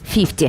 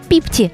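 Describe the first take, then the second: First: The word begins with an f sound. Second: The word begins with a p sound. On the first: This is the usual way to say it. "замість фіфті" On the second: This is how the locals say it. "їхнє піпті"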